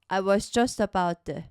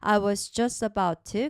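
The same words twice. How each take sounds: First: The t in 'to' is a soft flap. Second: The t in 'to' is a clear t. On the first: "to를 약하게 디귿과 리을 소리를 약하게" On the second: "좀 탄탄하게 트로 해볼게요"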